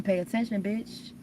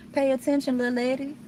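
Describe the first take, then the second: First: Mock scolding. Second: Higher, teasing pay attention; sing-song scolding. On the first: Scolding her past self for missing the sign, mock sass. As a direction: pay attention, a sassy jab at herself. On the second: Pretend. Scolding her past self, higher and teasing. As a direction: tease yourself like a wise auntie. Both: Scolding herself, playing the fool.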